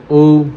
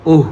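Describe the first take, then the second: First: ओ said as a slow, rounded o; vowel demo. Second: ओह said as an open au sound; vowel demo. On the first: Teacher to students, drawing out ओ slowly. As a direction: hold ओ out to show the back vowel. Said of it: "उसके बाद ओ". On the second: Teacher to students, showing ओह as the open vowel. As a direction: open the mouth wide on ओह, like औ. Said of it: "उसके बाद ओह". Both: Shown as a demonstration.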